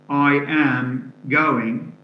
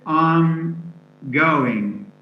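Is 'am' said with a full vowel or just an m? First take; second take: full vowel; just m. First: The word am is said with its full vowel. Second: The word am is reduced to just an m. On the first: The speaker calls it wrong. "we don't say I, I am" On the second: The speaker calls it right. "and only the m sound remains"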